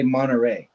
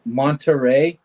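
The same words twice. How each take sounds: First: "Monterey" with the T dropped, like Monnerey. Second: Said in the usual way. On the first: Shown as a demonstration. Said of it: "There's no T in Monterey". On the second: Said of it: "we say Monterey".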